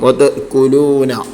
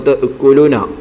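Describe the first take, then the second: First: The long vowel is held for its natural length. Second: The long vowel is not lengthened at all. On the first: The speaker calls it right. "ആവശ്യമായ സമയം മാത്രം നീട്ടുന്നതിനാണ്" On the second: The speaker calls it wrong. "തീരെ ഇല്ലാതെ"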